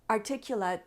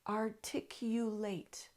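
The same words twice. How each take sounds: First: The word is slurred and stumbled over. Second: Every syllable of the word is said clearly. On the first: The speaker calls it wrong. "I had trouble with that word" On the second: The speaker calls it right. "Say it a few times, a little more slowly"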